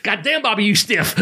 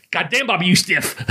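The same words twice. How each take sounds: First: High put-on voice of a wrestler through laughter; amused retelling of Sasuke's gripe; imitating Sasuke. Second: High, lightly put-on Japanese wrestler's voice; a hint of an accented complaint; mock wrestler griping mid-match; imitating Sasuke. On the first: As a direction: squeak it out like the Japanese wrestler. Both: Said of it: "I can do ... this voice".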